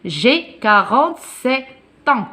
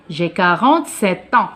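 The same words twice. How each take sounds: First: "quarante-sept ans" drawn out in pieces, "ans" starting on the t; slow liaison demo. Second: "sept ans" run together with a sounded t; joined-up liaison. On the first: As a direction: split "sept" and "ans", sounding "tans". (liaison en T détachée lentement : « sept ans ») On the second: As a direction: say "quarante-sept ans" connected, as "sè-tan". (liaison en T enchaînée : « sept ans ») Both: Shown as a demonstration. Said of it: "on fait la liaison avec T et A".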